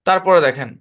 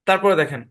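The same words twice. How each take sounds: Both takes have the same delivery.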